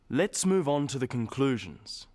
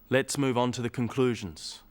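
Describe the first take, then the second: First: The sentence is said with varied intonation. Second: The sentence is said with flat intonation. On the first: The speaker calls it right. "Now we add intonation and stress" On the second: The speaker calls it wrong. "Let's add pauses"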